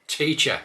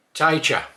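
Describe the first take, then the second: First: Said in the usual way. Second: Teacher said as taicher. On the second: Shown as a demonstration. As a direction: broaden the vowel in Teacher. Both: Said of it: "start with a few words".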